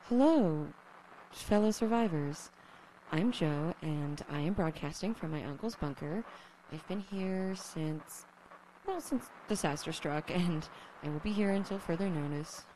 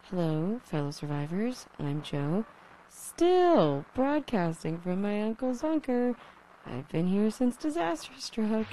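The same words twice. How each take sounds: First: Radio broadcast voice. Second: Lonely radio host voice, louder; a survivor broadcasting into static; crackly lonely radio dj. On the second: Repeated broadcast intro. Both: Acted.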